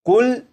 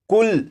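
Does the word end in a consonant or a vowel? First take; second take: consonant; consonant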